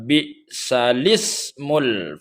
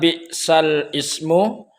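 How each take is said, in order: First: The vowel joins the 'l', sounding 'salismu'. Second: The 'ismu' part starts separately with its own vowel. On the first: The speaker calls it right. "dibaca bi'salismul fusuq" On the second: The speaker calls it wrong. "tidak lagi dibaca bi'sal ismu seperti uh, kebanyakan"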